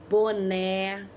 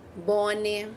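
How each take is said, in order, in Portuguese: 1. A última vogal é pronunciada com som aberto. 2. A última vogal é pronunciada sem som aberto. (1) "Ele é o som que eu deixo a boquinha aberta" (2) "Se eu não colocar o acento, ele fica"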